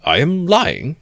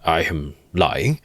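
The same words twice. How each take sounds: First: Mock incensed. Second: Slow, dry ironic echo; ironical repeat. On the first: Lawyer echoing the accusation, feigned indignation. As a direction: toss it back in feigned outrage. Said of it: "apparently incensed". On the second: Lawyer mulling the charge, slow and ironic. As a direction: savour the words with irony. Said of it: "good-humoured and ironical face". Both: A narrator's reading.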